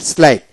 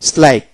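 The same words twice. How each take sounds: The two takes are said the same way.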